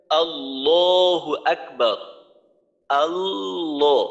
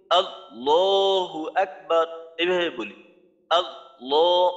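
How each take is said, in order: First: আল্লাহু আকবার drawn out very slowly, lam held voiced; slow correct recitation. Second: আল্লাহু with the lam dropped, slow; wrong recitation. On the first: Teacher shows students the right way, slow and sustained. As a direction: chant আল্লাহু slowly, keep the lam sounding. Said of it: "যেমন ধরেন". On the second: Teacher demonstrates the mistake to students, lam lost. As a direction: say আল্লাহ as aa-o without holding the lam. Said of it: "ভুল হবে". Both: Shown as a demonstration.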